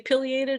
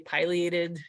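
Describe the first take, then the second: First: The first syllable sounds like 'pill'. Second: The first syllable sounds like 'pie'. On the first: Some people say it this way. "some people say" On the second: This is how it is said down south. "I like pies more than I like pills"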